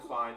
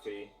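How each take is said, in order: First: The vowel sounds like 'eye', rhyming with 'fly'. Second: The vowel sounds like 'ee', rhyming with 'fee'. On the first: It follows the English reading of the spelling. The speaker calls it right. "Wi-Fi is spelled with the same spelling" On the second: It follows the Japanese reading of the letter. The speaker calls it wrong. "Japanese pronunciation of I, it would be Fee"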